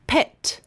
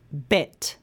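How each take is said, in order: First: "Pet" with a puffed P; isolated "Pet", air released on the P; unvoiced P demo. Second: "bet" with B, lower pitch; voiced B demo. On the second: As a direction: start "bet" without a puff of air. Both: Shown as a demonstration. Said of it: "comparing the sounds in these".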